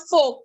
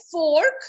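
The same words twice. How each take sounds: First: "fork" as fohk, falling; silent R. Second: "fork" with a clear R; wrong pronunciation. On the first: Teacher explaining the rule, fork with silent R. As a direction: drop the R from fork. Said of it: "The R is silent in the word". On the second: Teacher naming the form to avoid, fork with a sounded R. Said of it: "You do not have to say". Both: Shown as a demonstration.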